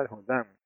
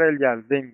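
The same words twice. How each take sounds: First: "Jordán" said the Spanish way, Hor-dán; softer aside, "Jordán" in its everyday Spanish form; Spanish pronunciation. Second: "Jardín" said as Hebrew Yardén; Hebrew pronunciation. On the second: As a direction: give "Jardín" its Hebrew form, Yar-dén. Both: Shown as a demonstration.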